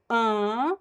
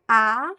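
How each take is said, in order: First: The vowel sounds through the nose too. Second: The vowel sounds through the mouth only. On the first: "which is nasal" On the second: "which is oral"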